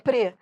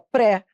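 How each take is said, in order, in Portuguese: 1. A sílaba é pronunciada fraca, com vogal reduzida. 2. A sílaba é pronunciada forte, com vogal aberta. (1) "pre é fraco" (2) "a pessoa fala errado, fala pré"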